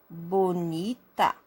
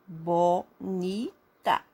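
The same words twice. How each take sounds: First: Measured, lower-pitched BONITA for pupils; slow example word. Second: BO, NI, TA with clear gaps between; very slow BONITA, three separate beats; syllable by syllable. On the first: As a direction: say BONITA slowly, lightly parted. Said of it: "São três sílabas". (BONITA dito devagar, como exemplo) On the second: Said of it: "Abra a boca três vezes pra falar". (BONITA bem devagar, sílaba por sílaba) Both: Shown as a demonstration.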